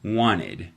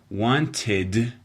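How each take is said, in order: First: The T is dropped and the D weakened. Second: The T is clearly pronounced in the middle. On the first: "she's dropping the T out of that word and kind of weakening the D" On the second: "The proper way to pronounce this word in English is wanted"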